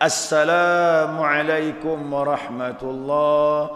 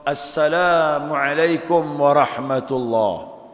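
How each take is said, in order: First: The article at the start is clearly sounded. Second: The same.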